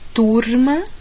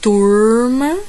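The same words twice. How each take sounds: First: The r is a light tongue tap. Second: The r is held with a curled tongue. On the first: "Capital paulista. ... Vibra um pouquinho a língua" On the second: "Interior paulista. ... A língua faz assim, fica um pouquinho"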